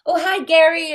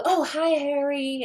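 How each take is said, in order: First: "Gary" said with a hard G like the name Gary, bright and higher; misheard name. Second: Carefully says "Harry" with an H after being corrected; corrected name. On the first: Greeting the musician at the party, "Gary" with a hard G. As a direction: greets him as "Gary" with a G, a cheerful mistake. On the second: Greeting the musician again, careful "Harry" with an H. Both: Retold or imitated. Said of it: "No, no, not Gary, Harry".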